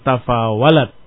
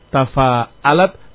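First: The middle consonant is a w sound. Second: The middle consonant is a glottal stop. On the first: "Inqalab al-hamzah ila al-waw" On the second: "Inqalab al-hamzah ila al-waw"

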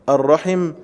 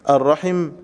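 No difference in how they are said.

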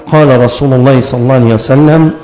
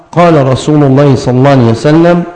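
The two takes are said the same way.

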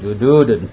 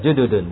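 First: The vowel after the d is long. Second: The vowel after the d is short. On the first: The speaker calls it wrong. "bukan jududun" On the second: The speaker calls it right. "Dulnya apa dalnya enggak panjang. Iya, jududun"

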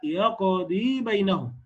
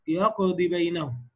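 First: The final vowel of يقضي is fully lengthened. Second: The final vowel of يقضي is clipped short. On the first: The speaker calls it right. "لا" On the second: The speaker calls it wrong. "بعضهم يسقطها وسطا فيقول"

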